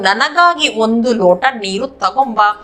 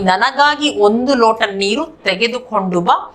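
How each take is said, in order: First: The final verb is squeezed into one short word. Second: The final verb is said as two full words. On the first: This is the everyday spoken form. "ये spoken version में बोलते हैं" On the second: This is the bookish written form. "ये किताब version में, नहीं तो पढ़ने लिखने का शैली में बोलते हैं"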